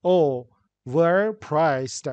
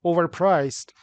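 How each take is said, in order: First: "overpriced" slowly in separate beats, o-ver-priced; split into syllables. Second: Said in the usual way. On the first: Shown as a demonstration. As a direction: clear gaps inside "overpriced". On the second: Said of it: "How many syllables are there".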